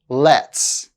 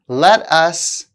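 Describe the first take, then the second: First: The words are blended into a reduced form. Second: Both words are said fully and separately.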